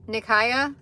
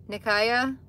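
No difference in how they are said.

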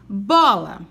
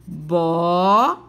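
First: Said in the usual way. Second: "Bola" said slowly as bo-la, lower, rising at the end; split into syllables. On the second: Shown as a demonstration. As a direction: separate "Bola" into bo and la. ("Bola" separada em sílabas, bo-la, devagar) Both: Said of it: "Duas vezes".

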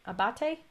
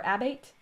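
First: Abate said as ah-BAH-tay; three syllables in Abate, stressed BAH, ending in tay; Italian-style pronunciation. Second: Abate said as AB-ate; two syllables in Abate, short a up front, silent final e; anglicized pronunciation. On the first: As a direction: say Abate the Italian way, final e sounded. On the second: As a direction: say Abate to rhyme its end with "eight". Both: Shown as a demonstration. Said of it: "how to say her last name".

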